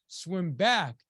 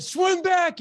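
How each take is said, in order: First: Louder, firm retold command; firm coach order. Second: High, very loud retold yell; coach's yell. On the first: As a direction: give the coach's order firmly. Coach gives first order in story. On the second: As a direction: yell the order like an insistent coach. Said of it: "And he yelled at me".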